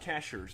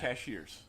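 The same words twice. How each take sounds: First: The word begins with the sound 'cash'. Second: The word is said like 'ca-sheers'. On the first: The speaker calls it right. "it's cash" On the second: The speaker calls it wrong.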